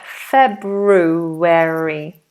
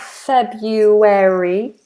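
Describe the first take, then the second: First: The first r sound is pronounced. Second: The first r sound is dropped. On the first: The speaker calls it right. "we pronounce the R" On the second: The speaker calls it wrong. "that is not February"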